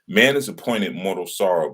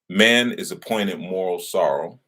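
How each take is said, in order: First: It is said at normal speed. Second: It is said slowly.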